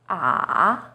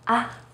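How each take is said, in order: First: The pitch dips low, then rises. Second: The syllable is said light and short. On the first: "Third tone, san sheng, is even lower. It first dips down, then rises" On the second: "you say it in a more light and short way"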